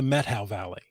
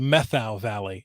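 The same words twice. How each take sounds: First: The first syllable ends with a t sound. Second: The first syllable ends with a th sound. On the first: The speaker calls it right. "It's not meth, it's met" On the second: The speaker calls it wrong. "I made a mistake in pronunciation"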